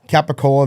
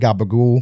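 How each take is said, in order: First: The full standard form with final vowel. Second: Italian-American form, voiced consonants, final vowel dropped.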